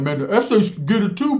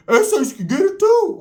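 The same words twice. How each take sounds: First: Mock Blood taunt. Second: Much higher, louder, slow sing-song taunt; mocking shout. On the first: Bloods taunting the SA's, first time, mildly raised call-out. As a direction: imitate a rival calling out, a bit higher. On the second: Bloods jeering the SA's again, in a high slow shouted taunt. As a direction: stretch out too like a jeering chant. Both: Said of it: "what the Bloods were saying".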